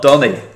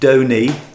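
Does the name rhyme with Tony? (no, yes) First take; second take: no; yes. First: The name does not rhyme with Tony. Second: The name rhymes with Tony. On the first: The speaker calls it wrong. "not Donny" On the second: The speaker calls it right. "my first line of this scripted research says Donny"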